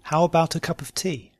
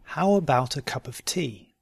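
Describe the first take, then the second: First: "How about a cup of tea" run together quickly. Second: "How about a cup of tea" slowly, measured. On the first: Teacher repeating the practice question, quickly. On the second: Teacher giving learners a question to try, slowly. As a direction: take your time over "How about a cup of tea". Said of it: "first slowly and then". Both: Shown as a demonstration.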